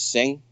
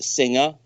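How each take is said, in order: First: The name is said with one syllable. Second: The name is said with two syllables. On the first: The speaker calls it right. "but actually it's Sing" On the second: The speaker calls it wrong. "Some people pronounce it Singer"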